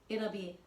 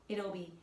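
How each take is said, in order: Both takes have the same delivery.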